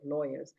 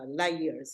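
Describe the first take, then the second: First: The word is said in a standard accent. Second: The word is said in a Punjabi accent.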